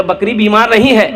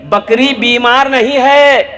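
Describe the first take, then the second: First: Said in the usual way. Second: Higher, slow insistence on नहीं है; pleading to be believed; slow insistent repeat. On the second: Acted. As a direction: drag out "बकरी बीमार नहीं है" with weight on है. Seller repeats insistence slowly.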